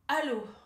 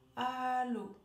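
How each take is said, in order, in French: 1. Le mot commence par une attaque tendue et bloquée. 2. Le mot commence doucement, en douceur, sans tension.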